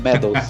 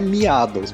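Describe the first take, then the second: First: The name starts with a short 'meh' sound. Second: The name starts with a 'mee-ah' sound. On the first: The speaker calls it right. "Como se fosse medalhas" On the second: The speaker calls it wrong. "de cara não é miados, pelo amor de Deus"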